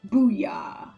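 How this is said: It is said quietly in a serious, subtle voice.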